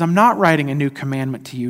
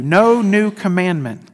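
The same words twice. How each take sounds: First: Said in the usual way. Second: "No new commandment" slowed, with "No" pushed up and out; stress on NO NEW. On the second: Shown as a demonstration. Preacher stressing "No new commandment" for his congregation. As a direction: lean hard on "No" and draw the phrase out. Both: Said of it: "there's an emphasis on that".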